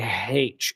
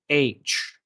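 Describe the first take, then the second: First: The letter name starts with an h sound. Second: The letter name starts with no h sound. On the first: The speaker calls it wrong. "don't say H" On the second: The speaker calls it right. "It's H. The H is silent"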